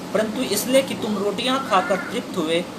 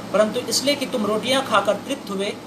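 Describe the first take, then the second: Both takes have the same delivery.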